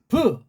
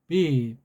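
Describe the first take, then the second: First: The b is said with force and a vowel. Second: The b is said softly, without force. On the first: The speaker calls it right. "우리는 비, 브" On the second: The speaker calls it wrong. "자신감이 없어가지고 힘을 못 내는 게"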